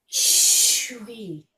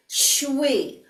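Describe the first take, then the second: First: Shui breathed out without voice; whispered exhale on Shui. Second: Said in the usual way. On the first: Shown as a demonstration. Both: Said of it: "breathe it out like a whisper".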